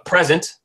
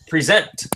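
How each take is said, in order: First: The stress is on the first syllable. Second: The stress is on the second syllable. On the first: It is a noun meaning a gift. "where something is a present" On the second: It is a verb meaning to present something. "where you're verbally presenting something to somebody"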